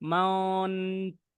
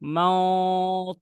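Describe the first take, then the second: First: The n sound is held before the t. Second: The n is skipped, going straight to t. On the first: The speaker calls it wrong. "এই টাইপের হয়ে গিয়েছিল কিছুটা।" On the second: The speaker calls it right. "ডাইরেক্ট চলে যেতে হবে হচ্ছে ততে।"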